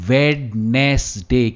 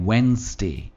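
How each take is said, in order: First: It is said with three syllables, 'wed-nes-day'. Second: It is said with two syllables, 'wenz-day'. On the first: The speaker calls it wrong. "It is not वेडनेसडे" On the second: The speaker calls it right. "पर यह है वेंसडे"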